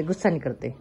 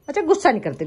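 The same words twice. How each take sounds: First: "गुस्सा नहीं करते" dropped much lower and softer, calming; gentle low reassurance to a pet; soft soothing. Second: Said in the usual way. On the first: Real, not acted. Soothing the pet biting its tail.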